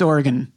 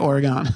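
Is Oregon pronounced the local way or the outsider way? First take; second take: local; outsider. First: It is pronounced the way residents say it. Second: It is pronounced the way non-residents say it. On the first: The speaker lives in the state. "If you live there, it's Oregon" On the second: The speaker lives outside the state. "if you live everywhere else, you say Oregon"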